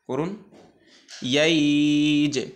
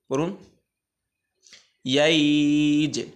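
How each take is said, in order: No difference in how they are said.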